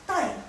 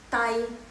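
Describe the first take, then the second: First: The syllable is said with a sharp fall. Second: The syllable is said without a sharp fall. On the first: "Nada keempat" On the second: "digabungkan dengan I, jadi bacanya tai"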